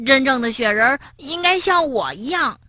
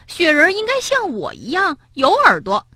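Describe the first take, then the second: First: Firm counter-claim; stubborn frog. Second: Much higher, insistent claim; insistent rabbit. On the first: Frog stubbornly contradicting the rabbit. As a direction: insist right back. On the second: Rabbit insisting the snowman should look like him. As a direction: push your point hard. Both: Acted.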